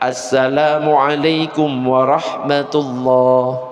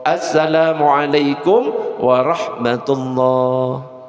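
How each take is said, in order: First: The greeting starts with the article 'as-'. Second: The greeting starts with the article 'as-'.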